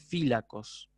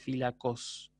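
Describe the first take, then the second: First: The stress is on the first syllable. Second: The stress is on the last syllable. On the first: The speaker calls it right. "hace fílacos" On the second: The speaker calls it wrong. "no hace fílacos"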